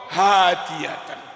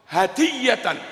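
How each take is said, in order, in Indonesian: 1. Vokal pertama dibaca panjang. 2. Vokal pertama tetap dibaca pendek. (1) "ojo diwaca hadiyatan" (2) "monggo hadiyatan"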